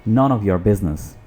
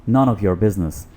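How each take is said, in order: Both takes have the same delivery.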